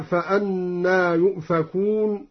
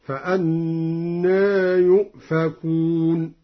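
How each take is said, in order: First: Said in the usual way. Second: Slow chant, final aa of فأنى fronted toward e; long-held tajwid recitation with taqlil on فأنى. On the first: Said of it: "قلل أن". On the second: Shown as a demonstration. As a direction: recite فأنى as fa-annae, vowel slightly tilted. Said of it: "قلل أن، هكذا".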